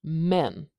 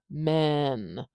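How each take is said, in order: First: The vowel is short and clipped. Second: The vowel is stretched out long. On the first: The speaker calls it right. "that is so short" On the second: The speaker calls it wrong. "It's not going to be stretched out like men"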